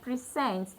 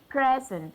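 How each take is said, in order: First: The stress is on the second syllable. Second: The stress is on the first syllable. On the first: It names an action. "So I stress my second syllable to show that this is actually a verb" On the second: It names a thing. "When it appears as noun, it shows that the stress is on the first syllable"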